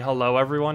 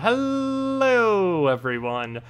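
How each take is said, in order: First: The greeting is said quickly and briefly. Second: The greeting is drawn out and stretched.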